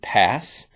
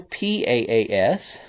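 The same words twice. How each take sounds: First: It is said as one single word. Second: It is spelled out letter by letter.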